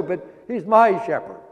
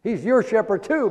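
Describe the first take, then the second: First: "my" leaned on with a falling tune; stress on my. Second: "your" lifted high in "He's your shepherd too"; stress on your. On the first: Preacher making the psalm personal, stressing "my". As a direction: press the word "my" to make it personal. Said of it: "My, that makes it personal". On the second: Preacher contrasting your and my shepherd, raising "your". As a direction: lift the word "your". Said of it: "that makes it personal". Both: Shown as a demonstration.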